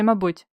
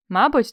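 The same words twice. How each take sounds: First: "мабуть" with its last consonant leaned on; "мабуть" falling, the ending sounded out; alternative final consonant. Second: Said in the usual way. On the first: Shown as a demonstration. Teacher asking which spelling is right, "мабуть" ending stressed. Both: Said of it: "як пишеться".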